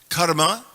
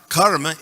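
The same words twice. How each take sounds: First: It is pronounced the Sanskrit way. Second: It is pronounced the Hindi way. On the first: "Karma is Sanskrit" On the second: "karma is Hindi"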